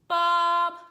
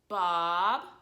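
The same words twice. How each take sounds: First: The pitch stays level and flat. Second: The pitch rises from low to high. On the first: "straight line across like this" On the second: "the sign for this tone goes down to up"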